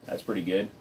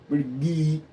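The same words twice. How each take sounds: First: Said in the usual way. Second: Higher, goofy put-on voice; silly voice. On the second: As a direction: goof around with an odd little voice. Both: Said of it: "I don't know why I'm talking like that".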